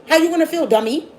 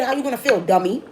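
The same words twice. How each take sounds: First: Higher, louder taunting repeat; louder scolding repeat. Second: Said in the usual way. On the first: Acted. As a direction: push it harder the second time, taunting.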